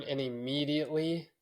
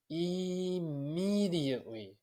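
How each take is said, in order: First: Said in the usual way. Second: Immediately stretched slow and higher; drawn-out emphasis. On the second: Real, not acted. Marvelling to the podcast host about his newborn daughter, immediately stretched slow and high. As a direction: draw out immediately, pitched up and slow. Repeats word, second time drawn out.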